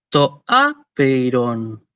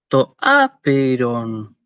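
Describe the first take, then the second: The two takes are said the same way.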